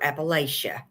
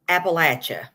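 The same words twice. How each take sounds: First: The middle consonant sounds like 'sh', without a t. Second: The middle consonant sounds like 'ch', with a t. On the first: The speaker calls it wrong. "It's never" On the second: The speaker calls it right. "the proper pronunciation is"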